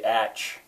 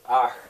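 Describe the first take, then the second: First: It ends in a 'tch' sound, as in 'match'. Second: It ends in a rasping sound in the throat. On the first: "an American looking at that would say atch" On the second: "I'm going to try to show you how this is pronounced"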